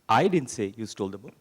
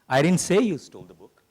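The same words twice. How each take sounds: First: The stress is on "I". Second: The stress is on "say".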